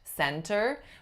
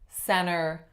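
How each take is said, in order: First: The T sound is clearly pronounced. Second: The T sound is left out completely. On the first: "It's not wrong to say the T" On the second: "no T at all"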